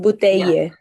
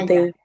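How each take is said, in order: First: The ending is carefully and fully articulated. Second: The ending is swallowed, stopping on an i sound. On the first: The speaker is trying too hard to sound correct. The speaker calls it wrong. "como cuando la gente se esfuerza en pronunciar bien y en verdad nadie lo dice así" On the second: This is how people normally say it. The speaker calls it right. "como que te la comes. But- como que terminas en la I"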